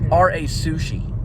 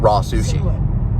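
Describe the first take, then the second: First: RA is spelled out as two separate letters. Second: RA is said as one word, like raw.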